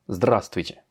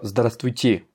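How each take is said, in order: First: The stress is on the first syllable. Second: The stress is on the last syllable. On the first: The speaker calls it right. "j'accentue sur здравствуйте, sur le A" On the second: The speaker calls it wrong. "comme le ferait un français"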